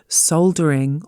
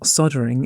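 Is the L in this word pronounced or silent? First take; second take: pronounced; silent. First: The L sound is clearly pronounced. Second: The L sound is left silent.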